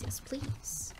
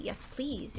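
First: Breathy whispered yes please. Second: Said in the usual way. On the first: Shown as a demonstration. Streamer wishing for the cottage life, whispered yes please. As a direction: whisper it like a longing secret.

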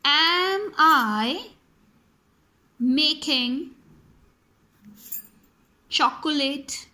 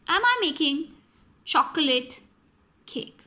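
First: Slow word by word. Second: Said in the usual way. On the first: Shown as a demonstration. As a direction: question spaced out word by word. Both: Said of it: "my question can be".

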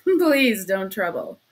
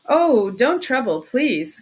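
First: Loud, slow words through a laugh; breaking into laughter. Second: Loud, agitated protest; crying out. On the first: Suspect refusing help, breaking into hysterical laughter. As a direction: laugh suddenly and push the words out. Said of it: "he suddenly broke into a laugh". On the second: Suspect refusing the investigator's offer, crying out. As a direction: cry it out, louder on the first words. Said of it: "cried Raskolnikov". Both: A narrator's reading.

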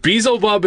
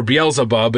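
First: Beelzebub said as BEE-zl-bub; shortened pronunciation. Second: Beelzebub said as bee-EL-zuh-bub; fuller pronunciation. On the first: Podcaster naming the devil, Beelzebub shortened to BEE-zl-bub. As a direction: run Beelzebub together in three syllables, BEE-zul-bub. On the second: Podcaster correcting himself, Beelzebub in full as bee-EL-zuh-bub. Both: Real, not acted. Offers two pronunciations, joined by or.

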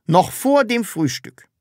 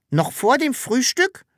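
First: "vor" hit firmly, "Frühstück" dropping; firm statement. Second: High, rising question on "Frühstück"; "Noch vor dem Frühstück" as a high question. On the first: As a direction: stress on "vor", falling at the end. Repeats it as an order. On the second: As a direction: ask it back in disbelief, "Frühstück" lifting at the end. Asks back at an order. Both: Acted.

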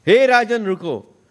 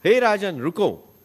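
First: Louder, higher plea to the king; tormented souls beg the passing king to stop, a louder plea; pleading call. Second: Said in the usual way. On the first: Retold or imitated. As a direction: call up from below, begging him to stop. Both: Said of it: "नीचे से त्राही त्राही की आवाजें".

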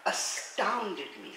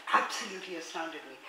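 First: Astounded drawn out slowly with falling tune; astounded me said slowly, weight on astounded; slow stress. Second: Absolutely leads, astounded me trails down; stress on absolutely. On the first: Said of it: "I want to read something now". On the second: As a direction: absolutely hit first with falling tune. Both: Shown as a demonstration.

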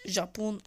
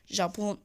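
No difference in how they are said.

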